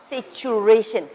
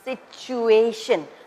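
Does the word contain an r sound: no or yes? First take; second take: yes; no. First: The word is said with an added r sound. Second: The word is said without any r sound. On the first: The speaker calls it wrong. "not situation" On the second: The speaker calls it right. "there's no r sound, r sound there. That's why it is pronounced situation"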